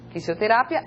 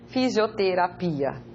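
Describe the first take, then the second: First: Fisioterapia with a sharp Spanish s and a rising ending; Spanish pronunciation. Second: Fisioterapia with a voiced z, as "fizioterapia"; Portuguese pronunciation. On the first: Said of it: "En español". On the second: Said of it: "En portugués". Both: Shown as a demonstration.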